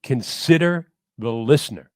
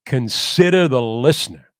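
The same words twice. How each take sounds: First: Said in the usual way. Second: A louder, lightly voiced Brooklyn-tinged announcer; Marty Glickman impression. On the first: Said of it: "That was it". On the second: Quoting his mentor's mantra to the podcast host, louder, a hint of Brooklyn baritone. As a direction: recite the old broadcaster's mantra with weight. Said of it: "he would say it in that deep baritone mix of Brooklyn and America".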